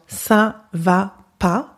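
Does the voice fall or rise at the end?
rise. The pitch rises at the end, as a question.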